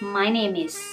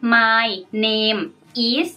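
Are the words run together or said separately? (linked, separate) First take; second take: linked; separate. First: The words run together, linked into one flow. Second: Each word is said separately, without linking. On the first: The speaker calls it right. "เสียงมันจะเชื่อมกัน" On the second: The speaker calls it wrong. "เราจะไม่ออกเสียง"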